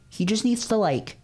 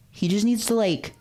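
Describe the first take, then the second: No difference in how they are said.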